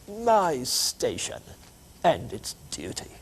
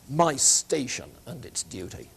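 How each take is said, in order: First: It is said in a broad English accent. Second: It is said in the speaker's plain accent.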